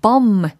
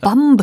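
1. 이 단어는 m 소리로 끝납니다. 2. m 다음에 b 소리와 모음이 옵니다.

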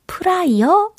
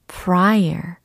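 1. 이 단어는 평평하게, r 발음 없이 발음됩니다. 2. 이 단어는 강한 r 발음으로 발음됩니다. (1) "혹시, 프라이어?" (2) "조금 더 굴려보세요"

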